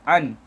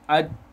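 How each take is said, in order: First: The n is pronounced fully and clearly. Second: The n merges completely into the d. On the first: "Kalau izhar" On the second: "kalau idgham"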